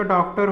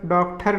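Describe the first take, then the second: First: डॉक्टर with unaspirated t; no puff on the t of डॉक्टर; correct डॉक्टर. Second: डॉक्टर with aspirated th, "dokthar"; wrong डॉक्टर. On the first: Teacher giving correct form, डॉक्टर with plain t. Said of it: "होगा इसका". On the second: Teacher rejecting the error, डॉक्टर as "dokthar". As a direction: puff the t in डॉक्टर. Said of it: "नहीं होता". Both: Shown as a demonstration.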